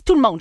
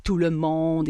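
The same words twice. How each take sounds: First: "tout le monde" said high and firmly; assertive emphasis. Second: Said in the usual way. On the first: Shown as a demonstration. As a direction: punch "tout le monde" as a bold claim. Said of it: "Mais là, je le dis". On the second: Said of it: "on dit souvent la généralisation de pas faire ça".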